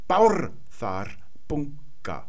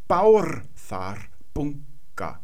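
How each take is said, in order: The two takes are said the same way.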